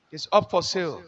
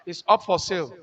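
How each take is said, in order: Both takes have the same delivery.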